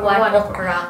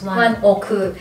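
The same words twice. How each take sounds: First: The name is said with a Western accent. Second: The name is said with a Japanese accent. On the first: This is how foreigners say it. "Sa mga like Western or sa ating mga gaijin or foreigner, we call them like" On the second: This is how people in Japan say it. "Dito sa Japan, di ba, ang tawag nila is"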